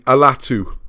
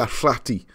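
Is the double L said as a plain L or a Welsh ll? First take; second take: plain L; Welsh ll. First: It has a plain L and ends in oo. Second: It has a Welsh ll and ends in ee. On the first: "This is the consensus one" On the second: "if you pronounce that in Welsh"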